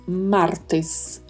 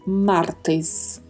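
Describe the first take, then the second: First: The last syllable is 'tes' with a closed e. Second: The last syllable is 'tes' with a closed e.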